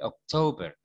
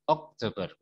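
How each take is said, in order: First: The stress is on the second syllable. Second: The stress is on the first syllable. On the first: The speaker calls it right. "tapi Oktober. To-nya yang ditekan" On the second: The speaker calls it wrong. "bukan ok-nya, bukan Oktober"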